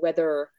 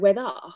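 First: The final R is clearly pronounced. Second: The final R is dropped. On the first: This is the older way of speaking. "how the English used to roll their R's, so it was, you know, weather" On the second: This is meant to sound upper class. "started speaking differently to try and make it sound more upper class"

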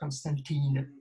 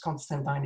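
First: The last syllable is not said as 'tyne'. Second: The last syllable is said as 'tyne'. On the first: The speaker calls it wrong. "it's not Constantine" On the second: The speaker calls it right. "it's Constantine, ... it's pronounced Tyne"

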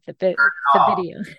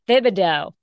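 First: The name is said with an extra syllable. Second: The name is said without an extra syllable. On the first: The speaker calls it wrong. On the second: The speaker calls it right.

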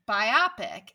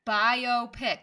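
First: The word ends in 'opic', like 'topic'. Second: The word is split as 'bio' plus 'pic'. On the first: The speaker calls it wrong. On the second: The speaker calls it right.

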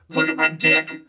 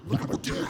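First: It is said in a put-on voice. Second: It is said in his normal voice.

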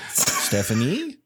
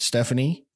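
First: The voice rises like a question. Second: The voice stays level, like a pause.

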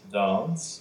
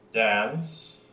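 First: The vowel is a broad open 'ah'. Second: The vowel is a flat front 'a'. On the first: This is the British way of saying it. "They, of course, have" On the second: This is the American way of saying it. "where we have that flat A"

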